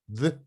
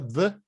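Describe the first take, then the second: First: It begins with the tongue between the teeth. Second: It begins with a z or d sound. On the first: The speaker calls it right. "para falar inglês você tem que morder a língua" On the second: The speaker calls it wrong. "fala z ao d e não fala correto"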